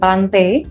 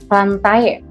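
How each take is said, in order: First: The ending is a single 'eh' sound. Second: The ending is spoken as 'ah' then 'eh'. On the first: The speaker calls it right. "A E dibacanya E ya" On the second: The speaker calls it wrong. "bukan plantae"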